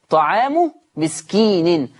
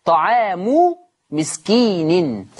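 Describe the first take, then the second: First: Slow recited طعام مسكين, Hafs reading; Quranic recitation. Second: Slow recited طعام مسكين with drawn-out vowels; Quranic recitation. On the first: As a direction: recite طعام مسكين slowly with drawn vowels. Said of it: "حفص هيعمل إيه؟". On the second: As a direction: chant طعام مسكين slowly as in tajweed. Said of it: "عندنا كلمة فدية". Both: Shown as a demonstration.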